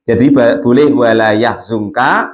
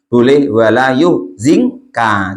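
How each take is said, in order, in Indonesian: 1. Kata kerjanya diawali 'ya', vokal tengahnya 'u'. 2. Kata kerjanya diawali 'yu', vokal tengahnya 'i'. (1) "boleh di baca fathah ya-nya, wadomizai dan dibaca doma za-nya" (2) "dibaca domah ya-nya. Eh wa kasri zai berarti yuzinka"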